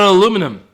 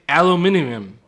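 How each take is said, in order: First: It is said with four syllables, American style. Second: It is said with five syllables, non-American style.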